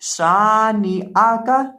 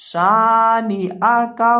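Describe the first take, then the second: The two takes are said the same way.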